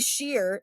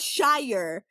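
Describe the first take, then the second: First: The vowel rhymes with 'fear'. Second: The vowel rhymes with 'fire'. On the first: The speaker calls it wrong. "You don't call it the Sheer" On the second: The speaker calls it right. "It's called the Shire"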